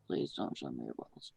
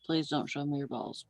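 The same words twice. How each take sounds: First: Low rumbling repeat; much lower voice. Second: Said in the usual way. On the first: Acted. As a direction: drop the voice way down. Second take, much lower.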